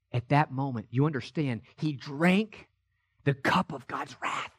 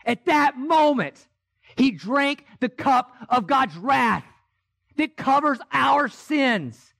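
First: Soft and low, almost to himself; a low, soft hush on the cup of wrath. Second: The same words again, now a slow full-voiced proclamation; preaching shout. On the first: Acted. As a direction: draw them in with a hush. Hushed retelling of the crucifixion. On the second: Climax of the sermon.

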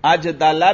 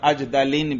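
First: अजदला slow, ending in -la; measured अजदला without tanween; gair munsarif form. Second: अजदलिन slow, ending in -lin; measured अजदलिन with tanween; munsarif form. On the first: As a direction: keep अजदला open on a, no n. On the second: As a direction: close अजदलिन on i and n. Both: Shown as a demonstration. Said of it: "दोनों तरह पढ़ सकते हैं".

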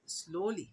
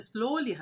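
First: Soft repeat. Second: Said in the usual way. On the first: Shown as a demonstration. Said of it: "هنضيف لها ال واي". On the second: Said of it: "المفروض نقول ببطء".

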